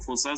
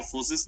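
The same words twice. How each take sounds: First: "फोर्सास" with an open "aa" in the last syllable; "फोर्सास" ending in a long "aa", not "is"; variant pronunciation. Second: "फोर्सेस" with a short "i" sound in the last syllable; "फोर्सेस" like English "forces"; variant pronunciation. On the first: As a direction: say "फोर्सास" as "fo-saas". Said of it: "चाहे तो आप फोर्सास बोलो". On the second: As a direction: say "फोर्सेस" as "for-sis". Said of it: "तो चाहे तो आप फोर्सेस बोलो". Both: Shown as a demonstration.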